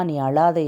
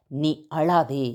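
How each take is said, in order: First: Said in the usual way. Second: "நீ அழாதே" slow and low, "அழாதே" drawn out softly; tender divine command. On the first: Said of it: "யார் சொல்றது தெரியுமா". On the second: Acted. God consoling those in tears, slow and tender. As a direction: speak it gently as God comforting. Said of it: "தெய்வம் சொல்லுகிறார்".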